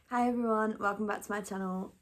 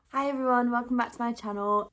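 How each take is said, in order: First: The greeting sounds flat and not very happy. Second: The greeting sounds happier and more cheerful.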